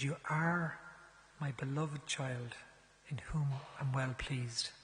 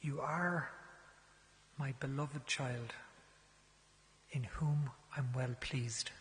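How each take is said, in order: First: Tender blessing repeated. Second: Put-on bestow it like a blessing on a child; tender blessing. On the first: Retold or imitated. Priest repeating the blessing on request, slow and tender. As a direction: give it again, like a gift. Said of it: "Give it to me again". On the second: Priest gently blessing a penitent, slow and tender.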